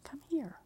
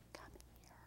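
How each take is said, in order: First: Higher, breath-edged call; retold insistent beckoning. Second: Barely audible whispered beckon; retold beckoning. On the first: Jesus calling the speaker over a third time, high half-whisper. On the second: Jesus privately calling the speaker over, whispered. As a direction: mouth it almost without voice, very softly. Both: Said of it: "and he's like".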